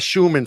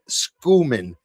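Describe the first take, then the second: First: The name begins with an 'sh' sound. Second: The name begins with an 'sk' sound. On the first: The speaker calls it wrong. "I was calling her Scho- uh, Schumann for a long time, and she corrected me" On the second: The speaker calls it right. "she has a point with the sk"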